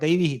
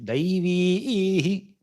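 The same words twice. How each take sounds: First: Every syllable is kept at ordinary length. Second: One syllable is held for a double length. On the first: The speaker calls it wrong. "not Daivi" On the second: The speaker calls it right. "you need to pronounce that syllable twice for two uh, durations"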